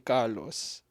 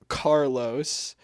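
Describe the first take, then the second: First: The name is said with non-English pronunciation. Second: The name is said with English pronunciation. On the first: This is the form the family uses. "but my mom calls me Carlos" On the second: This is the English form of the name. "my name in English is Carlos"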